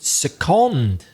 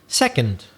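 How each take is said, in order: First: The stress is on the second syllable. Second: The stress is on the first syllable. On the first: To move a worker temporarily to another department. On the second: A unit of time, or the one after first.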